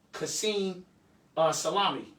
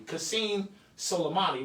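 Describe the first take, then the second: First: Soleimani slipped into "Salami"; hesitant slip, "uh, Salami"; mispronounced name. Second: Said in the usual way. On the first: Real, not acted. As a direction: say "Salami" for the surname, losing syllables. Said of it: "I keep saying Salami. I didn't mean to say Salami". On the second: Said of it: "What I meant to say is Qasem Soleimani".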